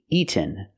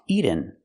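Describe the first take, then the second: First: The middle sound is a clear released T. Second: The middle sound is a quick flapped D. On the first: The speaker calls it right. "We have to make a real T" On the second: The speaker calls it wrong. "not pronounced eaten. We cannot make a fast D here"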